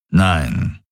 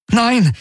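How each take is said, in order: First: Low, rumbled reply; low grumble. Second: High, anguished exclamation; desperate cry. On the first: Daraios contradicts Kirai, low grumble. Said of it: "brummte Daraios". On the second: Garland watches the fleets open fire, desperate cry. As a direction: cry out in protest, pitched high. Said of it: "rief er". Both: A narrator's reading.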